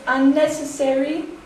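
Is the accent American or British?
American. It is said with a full American pronunciation. "as I say it"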